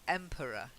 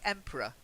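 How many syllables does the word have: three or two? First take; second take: three; two. First: The word is said with three syllables. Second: The word is said with two syllables. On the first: "schwa, r, schwa. So emperor" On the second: "as if that middle e doesn't exist at all"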